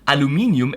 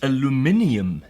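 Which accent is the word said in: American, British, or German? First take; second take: German; British. First: It is said with a German pronunciation. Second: It is said with a British pronunciation. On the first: "as we Germans say" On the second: "as the British say"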